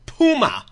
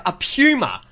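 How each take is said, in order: First: PUMA as POO-muh; mock Texan puma. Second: PUMA as PYOO-muh; Australian puma. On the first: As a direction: drop the Y glide from "puma". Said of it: "someone called it puma". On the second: Shown as a demonstration. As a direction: put a Y glide in "puma". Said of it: "instead of a puma".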